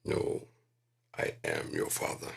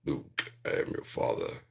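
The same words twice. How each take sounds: First: Low, hushed Vader; low Darth Vader voice, whispered; correct quote. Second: Low, hushed Vader; a breathy Darth Vader rasp; hushed, low Darth Vader misquote. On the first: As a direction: drop deep and hush it like Vader. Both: Retold or imitated. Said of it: "'cause he didn't say that".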